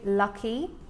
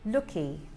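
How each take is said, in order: First: The first vowel is an open 'uh' sound. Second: The first vowel is a short rounded 'oo' sound. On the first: "the U has an uh sound" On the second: "he will say looky"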